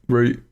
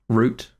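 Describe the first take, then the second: First: It is said in a South East London accent. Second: It is said in a posh Queen's English accent. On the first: "You just don't say T's" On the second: "That is my Queen's English"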